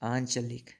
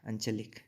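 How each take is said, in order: First: The first vowel is long. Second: The first vowel is short. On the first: The speaker calls it right. "ये बिल्कुल सही होगा आंचलिक।" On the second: The speaker calls it wrong. "ये शुद्ध अशुद्ध है ये।"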